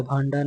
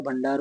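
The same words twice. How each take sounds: First: भांडार with long aa first; wrong vowel. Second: भंडार with short first a; correct vowel. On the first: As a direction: say bhaan-daar for भांडार. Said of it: "नहीं होता है". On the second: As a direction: say bhan-daar for भंडार. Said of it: "होता है". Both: Shown as a demonstration.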